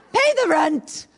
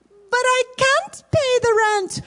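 First: Hammed-up villain, pushing harder; mustache twirling villain. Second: High pleading heroine wail; damsel in distress. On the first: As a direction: lean in like a cartoon landlord. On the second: Acted. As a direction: beg helplessly, hammed up. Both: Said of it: "So here we go".

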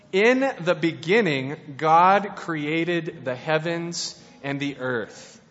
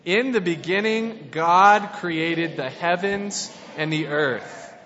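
First: Slow, weighty Bible reading; solemn scripture reading. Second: Slow group Bible reading; reading along with the congregation. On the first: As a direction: read it slowly like holy words. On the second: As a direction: read it aloud with everyone, slowly. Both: Acted. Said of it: "Let's read that all together".

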